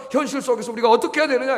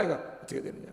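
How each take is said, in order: First: Said in the usual way. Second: A hushed, breathy repeat of the question; whispered echo. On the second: Acted. Pastor echoing his own question to the congregation in a whisper. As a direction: whisper the question back to yourself.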